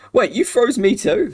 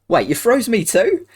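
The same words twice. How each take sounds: First: It is said without an Australian accent. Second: It is said in an Australian accent.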